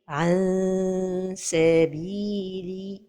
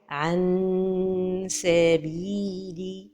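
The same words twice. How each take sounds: First: The n is lightly hidden with a nasal hum. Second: The tongue closes fully, giving a clear nasal n. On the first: The speaker calls it right. "la prononciation correcte" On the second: The speaker calls it wrong. "toucher le palais supérieur avec le bout de la langue"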